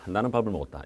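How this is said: It is said in one continuous stream. Speech is a continuous flow of sound. "쭉 연속적으로 발음하죠"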